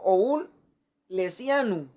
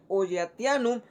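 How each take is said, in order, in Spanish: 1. La consonante antes de -ianum suena como s. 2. La consonante antes de -ianum suena como t.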